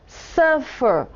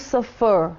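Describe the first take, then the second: First: "suffer" as SUF-fer, second syllable weak; stress on first syllable. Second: "suffer" with the stress moved onto the second syllable; wrong final stress. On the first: Teacher showing what we do say, "suffer" stressed on its first syllable. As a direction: punch the opening syllable of "suffer". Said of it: "a sílaba acentuada não é a última". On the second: Teacher showing what we don't say, "suffer" stressed on its last syllable. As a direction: lean on the end of "suffer", as suf-FER. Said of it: "porque não falamos suffer". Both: Shown as a demonstration.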